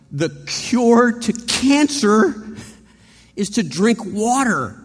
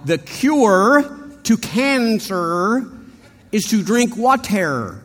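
First: "The cure to cancer" drawn out slowly and higher; careful, slow, weighty. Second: Slow, higher, crisp R's in "cancer" and "water"; Midwest anchorman. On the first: David passes on the message with slow careful precision. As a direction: spell out each word so nobody gets prodded. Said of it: "he says". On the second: The Boston guy now careful, Midwest anchorman voice. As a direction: read it like a polished Midwest news anchor. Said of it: "now he's talking like a Midwest anchorman". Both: Retold or imitated.

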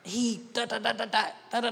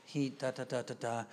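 First: High, rattled-off mock tantrum; retold child's yelling. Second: Low, soft, even gabble; calmed-down daughter. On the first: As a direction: imitate a yelling daughter's high-pitched gabble. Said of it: "my daughter came up yelling". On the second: Retold or imitated. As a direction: imitate a child quietly explaining the trouble. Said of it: "when your voice sounds like mine".

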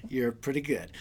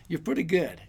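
First: A self-admiring murmur to his own bicep, lower and softer; murmured repeat. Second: Said in the usual way. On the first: Retold or imitated. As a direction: drop low and soft on the repeat "You're pretty good".

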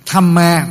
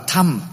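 First: "Thamma" as "tham-ma", final a sounded; full two-syllable reading. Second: "Tham" as one syllable, final a dropped; Indian reading of Thamma. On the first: Teacher citing the term in full, "Thamma" as "tham-ma". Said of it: "thì người Ấn Độ đọc là Tham". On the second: Teacher showing how Indians read Thamma, "Tham" without final a. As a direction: say "Tham" with no closing a. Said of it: "người Ấn Độ đọc là". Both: Shown as a demonstration.

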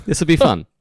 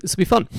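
First: Sarcastic. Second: Dry sarcastic remark. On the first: Repeats the sarcastic remark. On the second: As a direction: say it with heavy irony. Sarcastic about the broken laptop. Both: Real, not acted.

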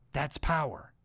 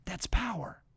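First: Said in the usual way. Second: Breathy whispered repeat. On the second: Acted. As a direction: drop to a hushed whisper for effect.

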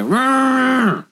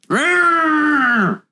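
First: High mock roar; playful monster growl. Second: Squealing high mock roar; a playful monster roar, even higher; playful monster growl. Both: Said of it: "Growl at us".

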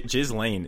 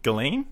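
First: "Ghislaine" started with a J sound, jiz-lane; soft J. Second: "Ghislaine" as ghee-LANE, S silent; hard G. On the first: Correcting the co-host, "Ghislaine" with soft J. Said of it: "is not the pronunciation". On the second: Querying the pronunciation, "Ghislaine" as gi-LANE. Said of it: "is it Ghislaine?". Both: Shown as a demonstration.

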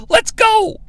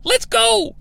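First: High-pitched "Let's go." to end the speech; mock Russo. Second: High-pitched, clipped "Let's go,"; mock Russo. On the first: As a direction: jump way up for "Let's go.". End of Russo's pep talk. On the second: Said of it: "After he says".

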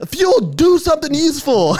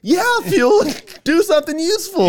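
First: High mock yell from the crowd; retold heckling yell. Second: Very high, eager copycat yell; imitated echoing fan. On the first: Spectator testing if the fan repeats him, yelling. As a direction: heckle the wrestler loudly. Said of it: "when I was yelling". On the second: Superfan repeating exactly what was yelled, eager yell. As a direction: parrot a heckle like an earnest superfan. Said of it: "our friend would repeat exactly".

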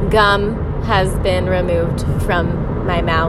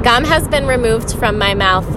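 First: Slow, official announcer read; mock formal announcement. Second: Said in the usual way. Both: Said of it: "I repeat".

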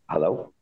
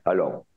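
First: Tentative hello rising at the end; questioning hello. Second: Low, grave hello with a falling close; very serious. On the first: The narrator unsure on the phone, tentative and rising. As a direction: ask it, unsure who answered. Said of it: "I said". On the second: The rebel contact answering the phone, grave and low. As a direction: answer the phone grave and flat-toned, lower. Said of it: "Very serious". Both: Retold or imitated.

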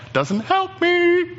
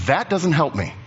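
First: High, drawn-out mock wail; mock complaint. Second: Said in the usual way. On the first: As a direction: stretch the protest high and slow. Listener's objection, repeated as complaint.

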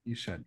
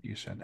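First: Much softer, lower push; quiet encouragement. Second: Even softer, lower push; quiet encouragement. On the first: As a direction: murmur it as a nudge. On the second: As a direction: murmur it again gently. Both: Real, not acted. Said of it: "encouraging repeat".

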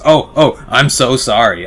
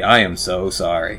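First: Louder and higher, a rushed, panicky sorry; clumsy cab driver apologizing for the mess; flustered apology. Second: Said in the usual way. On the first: Acted. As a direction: blurt it out after spilling the cups. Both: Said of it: "and goes".

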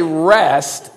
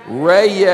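First: Said in the usual way. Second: "rest" stretched into a long "ray-yest"; higher, louder, long-held "ray-yest"; slow Southern rest. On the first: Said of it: "You can't say rest in a hurry". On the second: Shown as a demonstration. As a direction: draw "rest" out in two lazy syllables. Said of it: "You gotta say it slow".

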